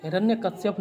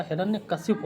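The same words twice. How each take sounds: First: "हिरण्यकश्यप" ending in श्यप; y-glide before the last syllable of "हिरण्यकश्यप"; wrong form. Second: "हिरण्यकशिप" ending in a short शिप; i vowel, no glide, in "हिरण्यकशिप"; correct form. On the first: Teacher quoting the mistake, ending with shyap. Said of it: "हिरण्यकश्यप नहीं होता". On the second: Teacher correcting students, ending with ship. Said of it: "हिरण्यकशिप होता है". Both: Shown as a demonstration.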